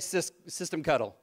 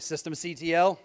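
First: The ending is said as one word. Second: The ending is said as separate letters.

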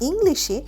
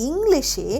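Both takes have the same delivery.

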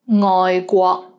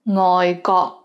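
First: The second word begins with a rounded gw sound. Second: The second word begins with a plain g sound. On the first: It means overseas. The speaker calls it right. "ngoi guo means overseas" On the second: It means foreign minister. The speaker calls it wrong. "the lazy version"

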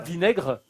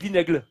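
First: The r is a French throaty r. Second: The r sounds like an l. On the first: "On dit pas vinaigre" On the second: "on dit vinaigre. Hein, au Japon"

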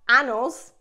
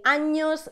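First: The middle consonant is a plain n sound. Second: The middle consonant is a palatal ny sound. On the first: The speaker calls it wrong. "not anos" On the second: The speaker calls it right. "We say años"

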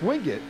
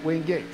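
First: The name is said the local North Carolina way. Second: The name is said the common outsider way. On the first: This is how natives of the area say it. The speaker calls it right. "it's pronounced Wingate" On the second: This is how most people would read it. The speaker calls it wrong. "not Wingate"

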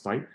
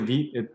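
First: The name rhymes with the English word invite. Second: The name is said like French vite, 'veet'. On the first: The speaker calls it wrong. "because it looks like it's kind of like invite" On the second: The speaker calls it right. "It's actually VITE. It stands for fast in French"

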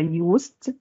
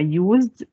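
First: The middle consonant is a hissing s sound. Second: The middle consonant is a buzzing z sound. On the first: "ولو نطقناها اس هتبقى used" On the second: "لو احنا قلنا الاس هنا ز هيبقى used"

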